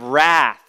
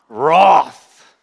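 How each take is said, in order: First: It is said with an American accent. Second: It is said with an Australian accent.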